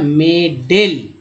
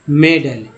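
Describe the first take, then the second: First: The second vowel sounds like 'e'. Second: The second vowel is a short 'uh'. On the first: The speaker calls it wrong. "पढ़ेंगे अगर ए को सभी जगह हम लोग ए ही पढ़ते" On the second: The speaker calls it right. "शुद्ध उच्चारण इसका है मेडल, यानी ए का उच्चारण अ के रूप में हुआ"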